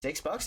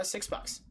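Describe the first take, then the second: First: Six bucks? rising higher in disbelief; can't believe the price; disbelieving echo. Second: Six bucks in a higher, airy clerk voice; matter-of-fact, light mock clerk; clerk stating price. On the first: Retold or imitated. Repeating the price back to the clerk, amazed. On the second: Clerk telling him the monitor costs six bucks, matter-of-fact.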